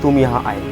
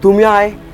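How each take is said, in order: First: It sounds loving and tender. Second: It sounds happy and cheerful. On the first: "आपको प्यार से बोलना है" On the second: "happy emotion"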